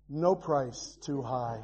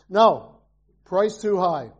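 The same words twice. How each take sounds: First: It runs on without a pause after 'No'. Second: There is a pause after 'No'.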